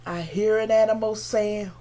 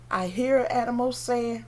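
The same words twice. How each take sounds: The two takes are said the same way.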